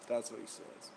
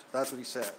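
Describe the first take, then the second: First: Softer, breathy doubtful aside; skeptical under-breath repeat. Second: Said in the usual way. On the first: Real, not acted. Vlogger doubting the support guy, muttered aside. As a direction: mutter it again to yourself, unconvinced.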